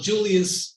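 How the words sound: The name is said with an English pronunciation. This is how English speakers say the name. "Julius in English speaking countries"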